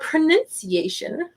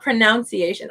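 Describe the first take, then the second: First: The second syllable sounds like 'nun'. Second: The second syllable sounds like 'noun'. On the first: The speaker calls it right. "Our pronunciation" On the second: The speaker calls it wrong. "I always say pronunciation, and people are like, "You pronounce that wrong.""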